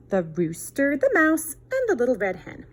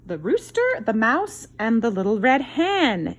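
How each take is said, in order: First: Said in the usual way. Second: High, loud, drawn-out title announcement; bright storybook title call; title read with flair. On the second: Acted. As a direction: present the title like a grand reveal. Reading the book title aloud.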